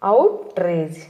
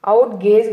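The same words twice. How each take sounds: First: "అవుట్రేజ్" with an "r" in "rage"; correct pronunciation. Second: "అవుట్ గేజ్" with a "g" replacing the "r"; mispronunciation. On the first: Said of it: "కరెక్ట్గా ఎలా పలకాలి". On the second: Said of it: "కాదు". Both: Shown as a demonstration.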